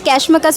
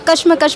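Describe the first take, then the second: First: The first syllable sounds like English 'cash'. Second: The first syllable sounds like 'kush', short vowel. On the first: The title is read as a pun on money. "इसे पढ़ने का दो तरीका है" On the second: The title is read as the Urdu word for struggle. "या कशमकश पढ़ें"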